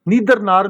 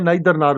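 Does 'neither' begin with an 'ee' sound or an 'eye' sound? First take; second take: ee; eye. First: The first vowel of neither sounds like 'ee'. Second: The first vowel of neither sounds like 'eye'. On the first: "नीदर नार भी इसको पढ़ते हैं" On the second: "नाइदर नार भी पढ़ते हैं"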